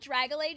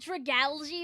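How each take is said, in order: First: The name's ending does not sound like 'algae'. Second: The name's ending sounds like 'algae'. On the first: The speaker calls it wrong. "I've called it Dragalage since I was like young" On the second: The speaker calls it right. "I know it's like dragalgy or whatever, like algae"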